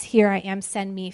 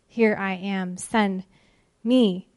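First: Said in the usual way. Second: "Here I am," then pause, "send", pause, "me"; spaced emphasis. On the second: Shown as a demonstration. Preacher stressing Isaiah's five words, with pauses. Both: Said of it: "Five words".

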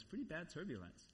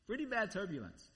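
First: Softer, downplayed answer; understated reply. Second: "Pretty" lifted and pressed; emphatic repeat. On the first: Husband telling waking wife about the flight, understated. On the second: Retold or imitated. Husband repeating the answer to wife, emphatic. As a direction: lean on "Pretty bad" in a fuller voice.

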